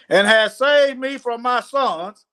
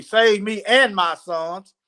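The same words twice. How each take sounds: First: Said in the usual way. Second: Slow, with "and" picked out; "and" set apart and emphasized; stress on AND. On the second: Acted. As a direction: lean on the word "and" to correct it. Corrects misread word after excuse me.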